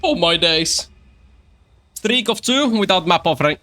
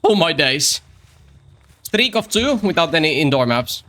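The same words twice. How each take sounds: First: Mock British streamer voice, pitched higher; a hammed-up British "Oh my days" intro; first take. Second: Retake of the mock British streamer voice; second take. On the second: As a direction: redo the British "Oh my days" intro. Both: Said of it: "Take two".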